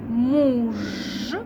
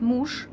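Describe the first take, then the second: First: The final consonant is a voiced zh sound. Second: The final consonant is a voiceless sh sound. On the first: The speaker calls it wrong. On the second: The speaker calls it right.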